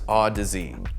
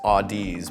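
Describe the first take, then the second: First: It is said rhyming with Odyssey. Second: It is said not rhyming with Odyssey. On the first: The speaker calls it right. "I soon learned it was" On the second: The speaker calls it wrong. "At first I was inclined to read the name as"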